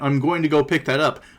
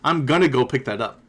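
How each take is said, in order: First: 'Going to' is said in full. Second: 'Going to' is shortened to 'gonna'. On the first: "instead of saying I'm going to" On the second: "she shortened her words"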